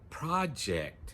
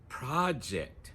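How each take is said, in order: First: The stress is on the first syllable. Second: The same.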